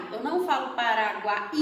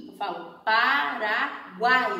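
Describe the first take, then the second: First: Paraguai broken up as Pa-ra-gu-ai, with gu and ai apart; teacher showing the wrong split of Paraguai; wrong syllable split. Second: Paraguai said slowly with guai kept as one syllable; teacher showing the right way to say Paraguai; correct pronunciation. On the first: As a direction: mispronounce Paraguai by separating the vowels. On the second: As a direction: stress Paraguai and keep guai together. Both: Shown as a demonstration.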